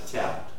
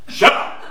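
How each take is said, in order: First: The word is said softly and flatly. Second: The word is said loudly and forcefully. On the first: The speaker calls it wrong. "Not shout" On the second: The speaker calls it right.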